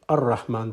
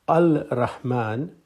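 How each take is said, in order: First: The L is silent and the R is doubled. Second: The article is said with a clear L sound. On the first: "you pronounce it Ar-Rahman. The L goes silent" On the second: "when Rahman becomes Al-Rahman"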